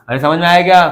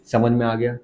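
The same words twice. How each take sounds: First: Louder, prodding the silent class; a teacher's raised nudge; insistent repeat. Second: Asked softly, almost to himself; a low, soft aside to the class; murmured comprehension check; quiet check-in. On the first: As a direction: call it out again and demand an answer. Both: Real, not acted.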